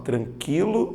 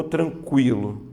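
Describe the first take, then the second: First: "tranquilo" said tran-KI-lo, no U sound; silent U. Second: "tranquilo" said tran-KWI-lo; pronounced U. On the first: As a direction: drop the U in "tranquilo", plain K before I. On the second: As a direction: sound the U in "tranquilo" as a W. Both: Shown as a demonstration. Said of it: "a letra U é pronunciada".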